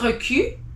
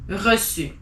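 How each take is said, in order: First: The middle consonant sounds like a k. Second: The middle consonant sounds like an s. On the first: The speaker calls it wrong. "So not reçu" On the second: The speaker calls it right.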